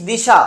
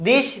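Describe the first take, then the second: First: দিশা ending on an open "aa"; added final vowel. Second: Said in the usual way. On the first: Shown as a demonstration. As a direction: finish দিশা with an extra aa. (শেষে আ যোগ করে "দিশা") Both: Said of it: "লাস্টে যা আসছে".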